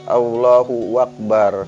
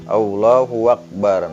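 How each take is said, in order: The two takes are said the same way.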